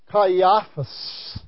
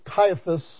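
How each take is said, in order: First: The name has its original Greek pronunciation. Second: The name has its usual English pronunciation. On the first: "the Greek word is literally Caiaphas" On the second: "Caiaphas is the normal English term that's told around"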